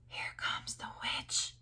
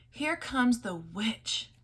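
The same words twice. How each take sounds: First: Voiceless, slow, hushed warning; frightened whisper. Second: Said in the usual way. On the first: A narrator's reading. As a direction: hiss it so the witch won't hear. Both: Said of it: "they whispered".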